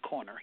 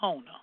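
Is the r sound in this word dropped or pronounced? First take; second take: pronounced; dropped. First: The word is said with its r sounds pronounced. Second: The word is said with its r sounds dropped. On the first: This is how outsiders say it. The speaker calls it wrong. "we don't say corner here" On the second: This is how locals say it. The speaker calls it right. "We say Kona"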